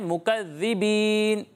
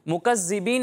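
First: The doubled consonant has no whistling hiss. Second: The doubled consonant has a whistling hiss. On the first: The speaker calls it right. "इसे पढ़ना है मुकज़्ज़िबीन" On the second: The speaker calls it wrong. "सीटी की आवाज़ निकालते हैं ... मुकज़्ज़िबीन नहीं पढ़ना"

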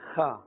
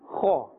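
First: The letter is said thin, without a full mouth. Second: The letter is said thick, with a full mouth. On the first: The speaker calls it wrong. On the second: The speaker calls it right. "pronounced with the full mouth"

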